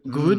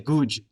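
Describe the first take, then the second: First: The word ends in a plain d sound. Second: The word ends in a j-like sound. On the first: "instead of g good" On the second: "our D's sometimes sound like j's. we would say guj"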